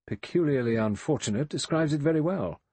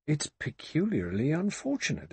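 First: Sardonic echo, higher and a bit louder, weight on very; mock the phrase back with dry irony; dry ironic echo. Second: Butler fretting, earnest and uneasy; worried butler. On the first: Lombard wryly echoing the butler's phrase, sardonic. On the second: Butler Rogers fretting to the guests, earnestly uneasy. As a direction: say it as a genuine worry. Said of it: "Rogers murmured". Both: A narrator's reading.

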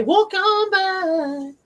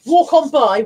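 First: Sung slowly. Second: Said in the usual way. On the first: Pretend. Streamer sings the song title at idle viewers, slowly. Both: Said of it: "You know what they say".

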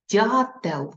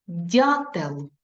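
First: Дятел repeated with a falling end; dictation repeat. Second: Дятел said clearly; dictation read. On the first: Teacher repeating last word, firm. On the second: Teacher dictating last word, clear. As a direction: give Дятел plainly and distinctly. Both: Shown as a demonstration. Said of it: "І останнє слово".

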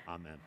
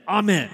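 First: Said in the usual way. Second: High, loud fervent Amen. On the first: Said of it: "and said". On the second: Retold or imitated. New visitor calling out in worship, loud and high. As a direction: burst out with Amen from the pew. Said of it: "the person stood up and, and said".

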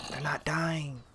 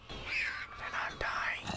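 First: Higher-pitched, voiced complaint; voiced worry. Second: Slow, drawn-out whisper; tense whisper. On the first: Repeats the whispered worry aloud. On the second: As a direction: whisper it under your breath, stretched out. Fretting over mobs not dying. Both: Real, not acted.

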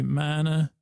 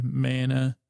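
First: "mana" with an open broad a as in "father", slow and sing-song. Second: "mana" with a flat short a as in "man", drawn out slowly. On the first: Answering the other way to say mana, "MAH-nuh" with broad a. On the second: Weighing the two ways to say mana, "MAN-uh" with flat a. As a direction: say "mana" like "MAN-uh", slow and sing-song. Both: Shown as a demonstration. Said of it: "is it mana or mana".

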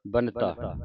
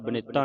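First: ਬਨਤਾ with n running into t; ਬਨਤਾ in two syllables; no middle i. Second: ਬਨਿਤਾ with a short i after the n; ਬਨਿਤਾ in three syllables; mistaken middle i. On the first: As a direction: say ਬਨਤਾ as BUN-ta. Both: Shown as a demonstration. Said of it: "ਇਹਨੂੰ ਬਨਿਤਾ ਨਹੀਂ ਪੜ੍ਹਨਾ".

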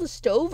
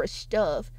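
First: Said in the usual way. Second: "stove" said as "stuv"; short "uh" vowel in "stove"; altered vowel in "stove". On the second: Shown as a demonstration. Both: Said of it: "is it called a stove or a stove?".

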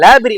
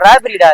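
First: Put-on லாபரி said with an L, as the boy said it; mocking the wrong word. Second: ராபரிடா said with a clear R at the start; correct pronunciation. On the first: Man quoting the boy's mistake, லாபரி with L. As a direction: echo his லாபரி with the L sound. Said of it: "ராபரிடா அது". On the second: Man correcting the boy, ராபரிடா with a firm R. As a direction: correct him: ராபரிடா, R not L. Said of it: "லாபரி இல்லடா". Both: Shown as a demonstration.

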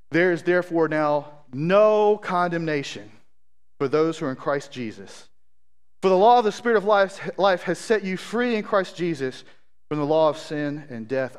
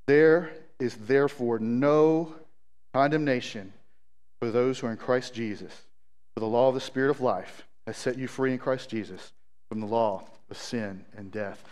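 First: Emphatic scripture reading, stretching NO. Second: Low, soft, unhurried scripture reading; encouraging scripture reading. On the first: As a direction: read the verse out with conviction. Reads scripture to the congregation. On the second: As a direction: reassure them with the verse, pitched low. Say that again just as encouragement. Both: Real, not acted.

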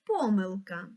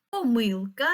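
First: Помилка stressed on по, PO-myl-ka; stress on first syllable. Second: Помилка stressed on мил, po-MYL-ka; stress on second syllable. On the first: Teacher dictating words to mark stress, first syllable of помилка. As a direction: put the weight on the start of помилка. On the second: Teacher dictating words to mark stress, middle syllable of помилка. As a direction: put the weight on the middle of помилка. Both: Shown as a demonstration. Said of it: "і поставимо в них наголоси".

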